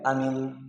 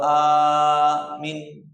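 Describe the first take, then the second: First: Both vowels are said short. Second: Only the first vowel is held long. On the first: It means safe. "kalau pendek" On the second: It means believe or trust. "a-nya panjang, min-nya pendek"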